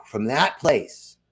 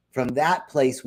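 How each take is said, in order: First: Slow emphasis. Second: Said in the usual way. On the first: Real, not acted. Repeated phrase slowed for emphasis.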